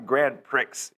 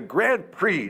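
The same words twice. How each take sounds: First: The final x of Prix is sounded. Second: The final x of Prix is silent. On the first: The speaker calls it wrong. "not the Grand Prix, you idiot" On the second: The speaker calls it right. "It's the Grand Prix"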